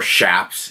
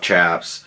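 First: The word begins with a sh sound. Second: The word begins with a ch sound. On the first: The speaker calls it right. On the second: The speaker calls it wrong.

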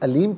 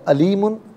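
First: The word ends on the bare final consonant. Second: The word ends with an added vowel ending. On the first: The reader stops at this word. "वफ़ की सूरत में अलीम पढ़ा जाएगा" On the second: The reading continues without stopping. "अलीमुन पढ़ेंगे"

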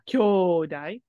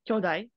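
First: The first vowel is said long. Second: The first vowel is said short. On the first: It means siblings or brothers. The speaker calls it wrong. "kyodai with a long O is siblings" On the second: It means strong or mighty. The speaker calls it right. "kyodai with a short kyo"

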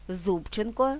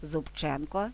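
First: The stress is on the first syllable. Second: The stress is on the second syllable.

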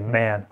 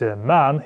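First: The vowel sounds like a raised 'eh'. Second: The vowel sounds like an open 'ah'. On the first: "как Э" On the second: "как А"

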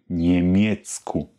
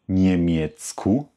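The two takes are said the same way.

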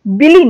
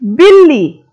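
First: The middle consonant is short, without a hold. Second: The middle consonant is held with a pause and pressure. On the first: The speaker calls it wrong. "बिली नहीं" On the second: The speaker calls it right. "हम हर शब्द में थोड़ा रुककर दबाव डालकर बोल रहे हैं"

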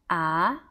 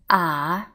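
First: The pitch rises like a question. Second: The pitch dips low and slowly comes back up. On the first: "the second tone will sound like a question tone" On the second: "the third tone, ah, you will find that it will be very similar to uh-huh in English, but just make it slower"

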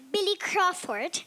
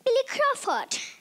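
First: It is said in a plain, non-British accent. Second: It is said in a British accent. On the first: "Instead of saying Billy Crawford" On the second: "you say Billy Crawford"

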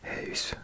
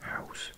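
First: The vowel is a rounded Dutch 'ui' sound. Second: The vowel is like the English 'ow' sound. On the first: The speaker calls it right. "Does that sound better?" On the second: The speaker calls it wrong. "I think I used to pronounce it house"

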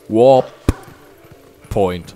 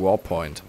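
First: The two parts are said separately with a break. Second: The two parts are run together into one word. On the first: The speaker calls it right. "Also nicht Warpoint" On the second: The speaker calls it wrong. "ich habe das gerade ein bisschen doof ausgesprochen"

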